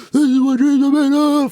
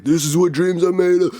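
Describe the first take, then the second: First: Very high-pitched mock screech; Kevin Garnett victory screech. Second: Higher-pitched mock victory cry; victory screech impression. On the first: Friend imitating a player's famous victory moment, full high screech. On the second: Friend recalling a player's famous victory screech, pitched-up imitation. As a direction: imitate a triumphant athlete, voice pitched up. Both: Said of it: "like, victory screech".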